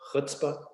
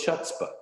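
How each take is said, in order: First: It begins with a throaty, guttural sound. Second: It begins with a plain English ch sound. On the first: "do you mean the book Chutzpah?"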